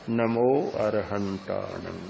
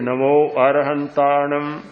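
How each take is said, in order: First: The phrase is said faintly and more slowly. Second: The phrase is said at full, clear volume. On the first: The practice has deepened with longer breathing. "उच्चारण मंद हो जाएगा" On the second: This is how the practice begins. "प्रारंभ में तो बोलेंगे"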